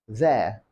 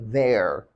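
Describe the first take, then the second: First: The final R is silent. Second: The final R is pronounced.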